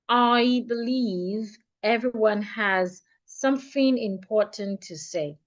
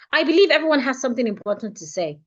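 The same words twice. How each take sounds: First: The sentence is spoken at a much slower pace. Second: The sentence is spoken at a much faster pace. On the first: "I'm going to go fifty percent slower" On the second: "I would say it fifty percent faster"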